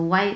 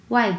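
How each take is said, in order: Both takes have the same delivery.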